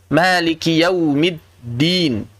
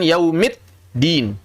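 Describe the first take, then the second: First: "Maliki yaumiddin" very slow, with a voiced double d; correct dal. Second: "yaumiddin" slow, as yaumit, gap, din; d turned t. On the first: Teacher models dal instead of ta, "Maliki yaumiddin" with held d. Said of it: "tapi dal". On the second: Teacher shows what to avoid, "yaumiddin" as yaumit-din. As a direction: cut "yaumiddin" with a sharp t before din. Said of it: "Bukan yaumiddin". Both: Shown as a demonstration.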